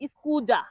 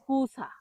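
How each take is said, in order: First: The middle consonant is a voiced 'z' sound. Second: The middle consonant is a voiceless 's' sound. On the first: The speaker calls it wrong. "অনেকেই ভুল করে বলে" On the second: The speaker calls it right. "সঠিক উচ্চারণ হবে"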